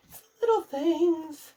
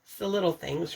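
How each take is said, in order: First: Higher, laughing through the phrase; tickled by her own saying; amused. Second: Said in the usual way. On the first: Real, not acted. Vlogger repeating her favourite saying, amused and laughing.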